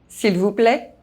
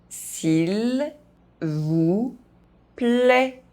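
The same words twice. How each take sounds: First: The phrase is spoken fast. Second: The phrase is spoken very slowly. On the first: "fast, as a native speaker would do" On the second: "very slowly"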